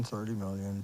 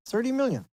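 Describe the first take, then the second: First: Thirty million trailing off low and soft; fading. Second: Thirty million said high and hard, falling on million; emphatic. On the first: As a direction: let thirty million die away, stress on thirty. Repeating the number, fading away. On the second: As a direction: punch out Thirty million, pitch up on million. Stressing the huge number. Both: Real, not acted.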